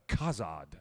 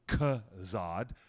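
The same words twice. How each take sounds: First: The first vowel sounds like 'ah'. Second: The first vowel sounds like 'uh'. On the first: The speaker calls it right. "it's an A H" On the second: The speaker calls it wrong. "not a U H, not a Khazad"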